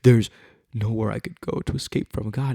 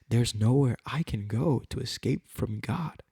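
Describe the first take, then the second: First: It is said in a dismayed, dreading tone. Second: It is said in a joyful, rejoicing tone. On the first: Being watched is something to fear. The speaker calls it wrong. "It's not a" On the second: Being watched is a comfort. The speaker calls it right. "Same sentence, different mentality"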